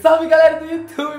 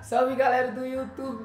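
First: It is said loudly with high energy. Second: It is said flatly with low energy. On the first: The viewer notices that someone has arrived. The speaker calls it right. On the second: The viewer gets bored and leaves. The speaker calls it wrong.

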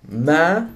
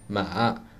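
First: The pitch rises from mid height. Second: The pitch falls and ends in a stop. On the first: "Tone number three is a mid-rising tone" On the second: "also a falling tone with a stop at"

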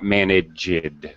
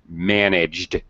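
First: The ending adds an extra id syllable. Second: The ending is a plain d sound. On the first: The speaker calls it wrong. "not managed" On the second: The speaker calls it right. "We only pronounce an extra sound, an extra syllable, id, when the verb ends with a T or D"

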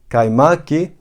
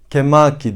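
First: The first two vowels are said separately, a then i. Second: The first two vowels merge into one e sound. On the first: This is how the spelling reads with the two dots. The speaker calls it right. "Ama yazmak istediğim şey kaymaki" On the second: This is how the spelling reads without the two dots. The speaker calls it wrong. "Eğer bu iki nokta burada olmasaydı kemaki diye okurdum"

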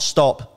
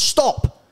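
First: It is said darkly, with an ominous, secretive edge. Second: It is said flatly, with plain exasperation. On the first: Something is hidden up there. The speaker calls it wrong. "Not stop, there's something up there" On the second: There is nothing more to it. The speaker calls it right. "literally just stop"

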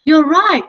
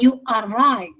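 First: You are is contracted into one syllable. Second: You are is said as two full words. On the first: The speaker calls it right. "Mereka biasanya mengkontraksi dengan mengatakan you're" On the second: The speaker calls it wrong. "Bukan you are right"

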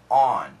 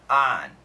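First: The vowel is rounded, close to an 'aw' sound. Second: The vowel is an open, unrounded 'ah' sound. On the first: "almost an A-W sound" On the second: "the American pronunciation is on"

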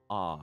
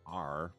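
First: The r sound at the end is dropped. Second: The r sound at the end is pronounced. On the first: "instead of saying ah" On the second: "you'd say R"

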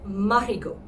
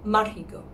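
The two takes are said the same way.

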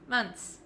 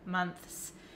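First: The th sound is dropped before the s. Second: The th sound is pronounced before the s. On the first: The speaker calls it right. "Just say months" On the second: The speaker calls it wrong. "You have to stick your tongue out for the T H"

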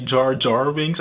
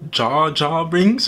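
First: The R sound in 'Jar' is pronounced. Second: The R sound in 'Jar' is dropped. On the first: The speaker calls it right. "is actually" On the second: The speaker calls it wrong. "I keep saying it wrong now already"

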